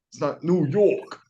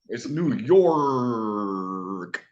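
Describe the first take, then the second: First: The R is dropped, New York City style. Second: The R is clearly pronounced, upstate style.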